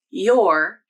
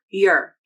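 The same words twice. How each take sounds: First: The vowel sounds like 'or', as in 'door'. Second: The vowel is a weak, unstressed 'er' sound. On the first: "your using the or vowel" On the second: "your using the unstressed er vowel"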